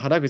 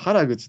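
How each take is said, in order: First: It is said with the common pitch pattern. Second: It is said with a strong Kansai pitch pattern. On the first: "原口はみんな原口言ってますけども" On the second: "たまーにこてこての関西人が原口とか言うパターンも"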